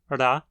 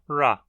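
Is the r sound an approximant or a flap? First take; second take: flap; approximant. First: The r is a quick retroflex flap. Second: The r is a smooth retroflex approximant. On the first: "o flap retroflexo" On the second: "a aproximante retroflexa"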